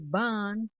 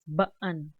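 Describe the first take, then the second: First: The vowel is one long sound without a break. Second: The vowel is split by a catch in the throat. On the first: The speaker calls it wrong. "It's not ban with the long uh, double A's" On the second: The speaker calls it right. "It's ba'an"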